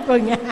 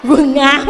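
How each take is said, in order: First: Said in the usual way. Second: Blurting the punchline loud through a laugh; laughing answer, louder. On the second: Real, not acted. Monk laughs telling the audience the answer, laughing loud.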